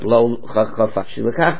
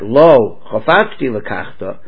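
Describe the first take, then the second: First: The words run together without any pause. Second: There is a pause after the first word. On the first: He refuses to marry her. The speaker calls it right. "but lo chafatsti lekachta altogether" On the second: It sounds like he does want to marry her. The speaker calls it wrong. "not lo chafatsti lekachta"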